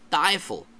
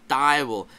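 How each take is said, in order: First: The middle consonant is an f sound. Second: The middle consonant is a w sound. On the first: "they'll have an F, and you'll hear it pronounced Teufel" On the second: "instead of having a W there in the word for devil"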